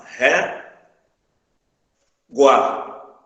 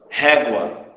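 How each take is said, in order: First: "ré, gua" said as two separate syllables with a pause; syllables split apart. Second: Said in the usual way. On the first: Shown as a demonstration. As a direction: break "ré" and "gua" apart slowly. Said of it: "se a gente separar as sílabas aqui". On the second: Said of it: "se a gente separar as sílabas".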